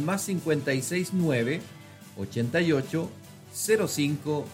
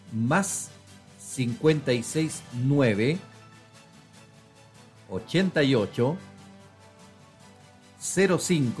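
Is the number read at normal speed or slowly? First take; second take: normal; slowly. First: The number is read at normal speed. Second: The number is read more slowly.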